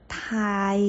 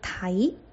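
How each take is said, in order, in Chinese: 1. 这个字是一个音一个音慢慢拉长读的。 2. 这个字是作为一个音节顺畅地读出来的。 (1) "我放慢一点，把这个音把它发完整" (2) "把它连起来就是台"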